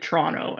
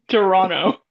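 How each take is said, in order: First: The first vowel is dropped, starting with tr. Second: The second t sound is left out. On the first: "as if it's T R" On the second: "So there's no second T"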